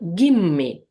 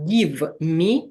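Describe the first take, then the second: First: The v blends into m, giving 'gimme'. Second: Every sound is said distinctly, with a clear v. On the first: The speaker calls it right. "v can be pronounced the same way as m" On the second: The speaker calls it wrong. "can you hear distinctively all the sounds here? Like, should it be give me the money like this? No"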